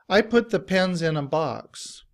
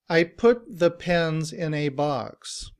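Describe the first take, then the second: First: The word 'a' is reduced to 'uh', linked as 'inna'. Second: The word 'a' is said fully as 'ay'. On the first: "In reduced form, we don't say a. ... we just say inna" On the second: "In citation form"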